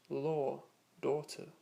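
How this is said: The words are said in a British accent. "with a more British style accent"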